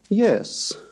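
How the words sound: The pitch rises on the word. "rising yes"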